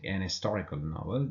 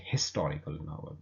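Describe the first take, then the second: First: Historical said "istorical", the H dropped after "an"; silent H. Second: Historical said with its H breathed out; sounded H. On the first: Teacher showing when to use an, silent H. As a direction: drop the H, link "an" straight into historical. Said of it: "if you say an historical novel". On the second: Teacher showing the other way to say it, sounded H. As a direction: pronounce the H at the start of historical. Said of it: "that H sound is pronounced". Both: Shown as a demonstration.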